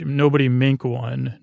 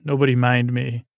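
First: "mink one" said as written, in place of "mind me"; literal misreading. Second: Said in the usual way. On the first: Shown as a demonstration. Host repeating the garbled note, literal misreading of "mink one". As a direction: read "mink one" literally as two nonsense words. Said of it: "this is literally what my handwriting says".

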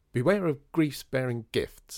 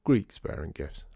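First: Maddie half-declaims griefs bearing gifts, loud and slow; a trial phrasing, slow and raised; misquoted proverb. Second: Mitt gives Greeks bearing gifts slowly, leaning on Greeks; low, patient correction with Greeks stressed; correcting the quote. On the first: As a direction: try out the line beware of griefs bearing gifts aloud, testing it. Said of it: "No, that doesn't work". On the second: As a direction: set the record straight, stress on Greeks. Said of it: "It's Greeks". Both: Acted.

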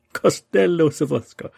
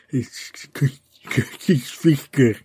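First: Costello Sorfesco with a hammed Italian accent, much higher and louder; loud playful Italian-accented Costello Sorfesco. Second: Costello Sofosco stumbled through in an English accent; clumsy English-accented Costello Sofosco. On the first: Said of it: "If you say it with an Italian accent". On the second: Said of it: "with an English accent". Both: Shown as a demonstration.

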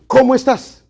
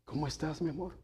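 First: Loud, sharp, much higher demand; harsh tone. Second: Soft, loving question to a spouse; tender greeting. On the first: Pastor showing the same greeting twisted, loud and harsh. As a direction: bark the question as if annoyed. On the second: Pastor showing a wife's loving greeting, soft and tender. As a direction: ask it gently, full of affection. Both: Shown as a demonstration. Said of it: "Es la misma palabra, pero el tono cambia".

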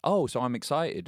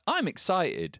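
First: Put-on higher child voice, questioning; kid catching on. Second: High-pitched excited child, retold; excited kid. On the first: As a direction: play a child tentatively trying out the idea. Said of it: "And the kid was like". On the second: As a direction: declare it like a newly convinced little kid. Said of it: "And he's like".

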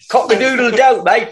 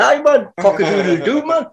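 First: High crowing in mock Cockney; Cockney accent. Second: High-pitched crowing in Geordie. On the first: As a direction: crow like a London rooster with a Cockney accent. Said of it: "that Cockney accent in there". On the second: Acted. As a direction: crow like a rooster from Newcastle, Geordie accent. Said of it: "you mean like a Geordie crow?".

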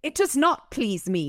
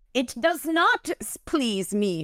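First: Higher-pitched English accent for the fairy. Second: High, slow spat-out refusal; sudden, vicious. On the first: Shown as a demonstration. The fairy refusing Michael, spat in English accent. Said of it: "my English accent sucks". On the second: A narrator's reading. The fairy refusing Michael, spat and vicious. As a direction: spit it out, drawing out the words. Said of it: "she spat, sudden and vicious".

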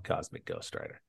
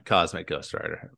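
First: Hushed mock reveal. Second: Said in the usual way. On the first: Shown as a demonstration. Hushed grand reveal to cohost.

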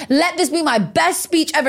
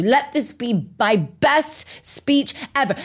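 First: Rising fervent plea. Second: Slow, heartfelt plea; slow earnest prayer. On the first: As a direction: build it up, climaxing the prayer. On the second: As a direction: pray it slowly, as a mantra. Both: Retold or imitated. Retold prayer repeated, building.

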